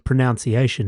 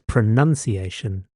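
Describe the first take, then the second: First: The second syllable sounds like 'noun'. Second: The second syllable sounds like 'nun'. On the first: The speaker calls it wrong. "there's actually no such kupu as pronunciation" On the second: The speaker calls it right. "It's pronunciation"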